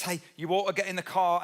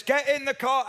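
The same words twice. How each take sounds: First: Said in the usual way. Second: Higher, louder dad command; firm dad order. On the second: Retold or imitated. Dad ordering the kids into the car, firm and louder. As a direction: bark it like a dad who means it.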